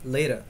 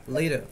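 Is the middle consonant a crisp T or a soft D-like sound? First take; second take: soft D; soft D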